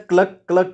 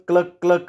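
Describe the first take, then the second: No difference in how they are said.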